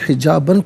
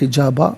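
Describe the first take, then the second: First: The word ends with an -an sound. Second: The word ends with a long a vowel. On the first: The reader continues without stopping. "इसे हिजाबन पढ़ेंगे" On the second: The reader stops at this word. "वफ़ की सूरत में हिजाबा पढ़ा जाएगा"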